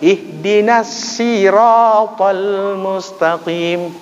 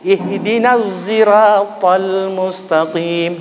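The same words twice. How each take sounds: First: The word sirat starts with a plain s. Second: The word sirat starts with a z sound. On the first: This is a regional dialect reading. "Shad jadi sin" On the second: This is another regional dialect reading. "bukan shad, bukan sin tapi za"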